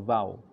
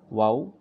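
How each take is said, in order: First: It begins with a v sound. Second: It begins with a w sound.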